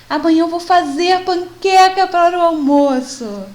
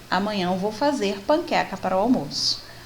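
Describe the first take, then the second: First: It is said with strong feeling. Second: It is said plainly, without feeling.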